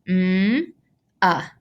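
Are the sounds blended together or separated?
separated. Each sound is said separately with a break. The speaker calls it wrong. "instead of doing each individual sound like this"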